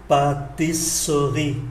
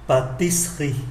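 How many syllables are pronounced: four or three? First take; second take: four; three. First: The word is said with four syllables. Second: The word is said with three syllables. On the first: "4 âm tiết" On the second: "còn lại 3"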